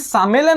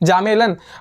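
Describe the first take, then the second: First: The word begins with an s sound. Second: The word begins with a z sound. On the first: The speaker calls it wrong. "हमारे हिसाब से तो ये सामेलन हो गया" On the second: The speaker calls it right. "ये वर्ड को प्रोनाउंस किया जाएगा जा में ल न"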